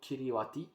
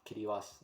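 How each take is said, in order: First: The word is pronounced just as it is spelled. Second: The word is pronounced differently from its spelling. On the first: "you wrote Kiribati" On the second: "but you pronounce it uh, Kiribati"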